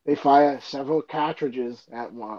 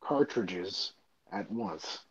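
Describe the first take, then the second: First: CARTRIDGES without its R, like "CAT-ridges"; dropped-R accent. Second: CARTRIDGES slowly, with the R sounded: "CAR-tridges"; corrected R pronunciation. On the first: Reader slipping back into an old accent while rehearsing the dub, dropped-R accent. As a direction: say "cartridges" R-less, opening vowel flat as in "cat". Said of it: "from saying cartridge when I was reading". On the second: Reader stopping themselves while rehearsing the dub, corrected R pronunciation. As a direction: carefully put the R back into "cartridges". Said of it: "I had to stop myself".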